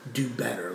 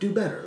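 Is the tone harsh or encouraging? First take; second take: harsh; encouraging. First: It is said in a harsh, critical tone. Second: It is said in a warm, encouraging tone.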